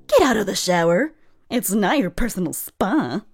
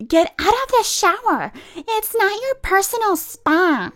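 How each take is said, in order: First: Said in the usual way. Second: High, loud mock yell; imitating a pushy woman barking orders; mock high yelling lady. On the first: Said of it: "repeats the quote in own voice". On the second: A woman yelling at a lady in the shower, mocking.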